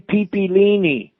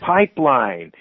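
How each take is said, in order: First: The word is said with four syllables. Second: The word is said with two syllables.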